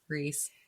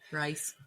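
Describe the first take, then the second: First: The vowel sounds like the one in 'piece'. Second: The vowel sounds like the one in 'nice'. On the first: The speaker calls it right. "his name is pronounced Reese" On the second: The speaker calls it wrong. "Rice Rice Hand is in my mind"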